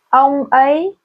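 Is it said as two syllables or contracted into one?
two syllables. It is said as two separate syllables.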